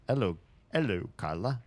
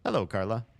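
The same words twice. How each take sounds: First: Put-on French-accented hello, dropping the H; bad French accent. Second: Said in the usual way. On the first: Streamer restarts the note from Jules, bad French accent. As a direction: try the greeting in a hammy French accent. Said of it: "Such a bad French accent". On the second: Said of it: "Oh, this is from Jules".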